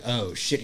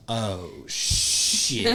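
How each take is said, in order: First: Said in the usual way. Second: OH, SHIT stretched out slowly; drawn-out dismay. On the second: Retold or imitated. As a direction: let "Oh, shit" dawn gradually. Retold reaction on spotting child.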